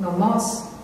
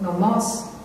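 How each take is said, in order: First: The stress is on the second syllable. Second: The same.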